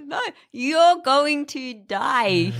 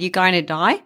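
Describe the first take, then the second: First: Very slow, higher, spelt-out Aussie vowels; slow Australian clarification. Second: Aussie doctor's casual rising question; Australian accent. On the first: Doctor clarifying to confused patient, slow Australian accent. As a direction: imitate the doctor stretching each word. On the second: Doctor to American patient, broad Australian accent. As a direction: say today so it sounds like die, Aussie-style. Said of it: "And he said". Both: Retold or imitated.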